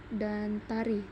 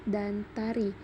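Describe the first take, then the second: No difference in how they are said.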